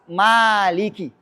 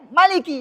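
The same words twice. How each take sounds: First: The first vowel is long. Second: The first vowel is short. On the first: The speaker calls it right. "harus ... ya panjang lah" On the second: The speaker calls it wrong. "Enggak boleh"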